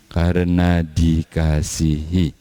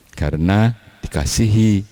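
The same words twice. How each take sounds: First: Karena dikasihi drawn out slowly and softened; slow, lingering repeat. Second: Said in the usual way. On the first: Shown as a demonstration. Preacher to congregation, repeating karena dikasihi slowly.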